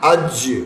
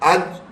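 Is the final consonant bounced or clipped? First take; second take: bounced; clipped. First: The final j ends with an echoing bounce. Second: The final j stops without any bounce.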